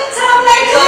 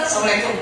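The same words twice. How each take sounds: First: High, sing-song hammed-up greeting; overeager. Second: Low, soft, unbothered greeting; cool. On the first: A husband bursting in the door to his wife, overeager. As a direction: gush it out the second the door opens. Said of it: "Mau punya suami kayak gitu". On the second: Acted. A husband coolly greeting his wife at the door, cool.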